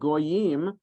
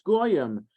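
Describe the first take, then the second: First: It is said in the Biblical Hebrew pronunciation. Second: It is said in the Ashkenazi Yiddish pronunciation. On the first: It is the proper scriptural form. "in the Torah the way the trup and the vowels are put there on the word, that's the way you're supposed to pronounce it"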